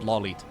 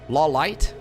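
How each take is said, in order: First: The second vowel is a long E sound. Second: The second vowel is an 'eye' sound. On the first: The speaker calls it right. "the I E sound right next to each other is pronounced as a long E" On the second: The speaker calls it wrong. "Lawlight doesn't sound right"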